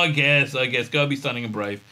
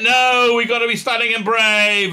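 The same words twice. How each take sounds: First: Quick, half-hearted giving in; mock resignation. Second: High, loud mock defiance; hammed-up heroic insistence; mock heroic protest. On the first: Reluctantly going along with the brave plan, mock resigned. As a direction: let the heroics deflate, resigned. Reluctant echo of heroic line. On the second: Mocking hero answering a doomed-plan warning, loud heroic protest.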